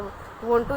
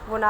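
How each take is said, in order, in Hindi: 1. दोनों शब्द पूरे और अलग-अलग बोले जाते हैं। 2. ये शब्द मिलकर एक संक्षिप्त शब्द बन जाते हैं। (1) "वॉन्ट टू इजिकल टू वोना" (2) "वोना वना वोना, आप कुछ भी लगा सकते हो"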